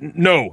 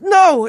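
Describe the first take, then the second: First: The voice sounds like an older man. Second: The voice sounds young but not tough.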